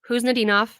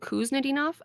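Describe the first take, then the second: First: The initial K sound is silent. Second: The initial K sound is pronounced. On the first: The speaker calls it right. "You do not pronounce the K. It is Kuznetsov" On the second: The speaker calls it wrong. "Previously, I was saying Kuznetsov. I was wrong"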